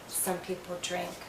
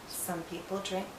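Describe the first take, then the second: No difference in how they are said.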